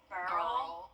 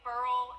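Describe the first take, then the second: First: It is said as a blend of both forms. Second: It is said as one short syllable, 'burl'. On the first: The speaker calls it right. "I think it's like a mix" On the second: The speaker calls it wrong. "it's not quite burl"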